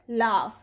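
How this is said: The vowel is a broad, open 'ah' sound. "it may also say off, as in the word laugh"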